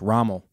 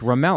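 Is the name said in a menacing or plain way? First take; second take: menacing; plain. First: The name is said in a menacing, intimidating way. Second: The name is said in a plain, friendly way.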